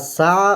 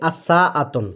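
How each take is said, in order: First: The word ends clipped, without the final syllable. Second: The word ends with a full '-atun' ending. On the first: "যদি আমি ছেড়ে দিই তাহলে আসা প্রোনাউন্সিয়েশন হয়" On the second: "আর যদি আমি আরও স্পষ্ট করে বলি"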